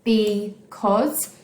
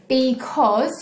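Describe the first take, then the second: First: "Because" as be, pause, cause; syllable-by-syllable "Because" with a rise at the end; split into syllables. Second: Said in the usual way. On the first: Shown as a demonstration. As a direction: break "Because" into two separate beats. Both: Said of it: "has two syllables".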